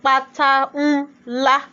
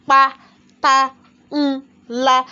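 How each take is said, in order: First: Said in the usual way. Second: "Pátá, ńlá" in four detached, punched beats; syllables separated. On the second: Shown as a demonstration. Teacher counting four syllables, "Pátá, ńlá" beaten out one by one. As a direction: break "Pátá, ńlá" into pa, ta, n, la with gaps. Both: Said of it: "we have four syllables there".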